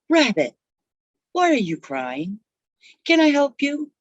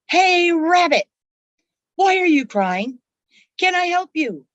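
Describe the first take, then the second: First: It is said at a quiet, normal volume. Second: It is said somewhat loudly, as a yell.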